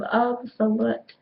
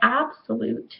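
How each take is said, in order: First: The word has its vowels changed around. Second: The word has standard American English vowels. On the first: The speaker calls it wrong. "he just changed vowels around and did that incorrectly" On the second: The speaker calls it right. "he should have said absolute"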